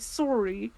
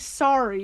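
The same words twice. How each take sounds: First: It is said with a Canadian pronunciation. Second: It is said with an American pronunciation. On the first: "Because Danny is Canadian, ... you say sorry" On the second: "You don't say sorry"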